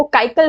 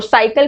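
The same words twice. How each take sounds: First: काइकल, cycle begun with a k; wrong first consonant. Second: Said in the usual way. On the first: Shown as a demonstration. Teacher showing an embarrassing mistake, काइकल with a hard k for cycle. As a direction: swap the opening s of cycle for k, काइकल. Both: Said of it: "साइकिल को काइकल".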